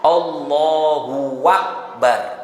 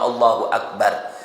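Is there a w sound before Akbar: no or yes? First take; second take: yes; no. First: A w sound is added before Akbar. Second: Akbar follows Allahu with no added w sound. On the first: God and the greatest. The speaker calls it wrong. "pakai w, ya, wakbar" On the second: God is the greatest. The speaker calls it right. "Biasanya lengkap semua"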